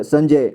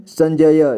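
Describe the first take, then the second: First: Said in the usual way. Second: संजय split as "san-ja-ya"; संजय with final य voiced as "ya"; sounded out. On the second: Shown as a demonstration. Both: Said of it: "इसे संजय पढ़ेंगे".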